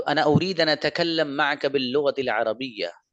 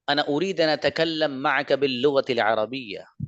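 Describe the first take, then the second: First: Second speaker's Arabic. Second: First speaker's Arabic. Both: Shown as a demonstration. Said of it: "इसने भी वही बात बोली है जो फर्स्ट नंबर वाले ने बोली".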